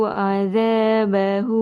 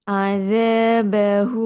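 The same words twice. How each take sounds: The two takes are said the same way.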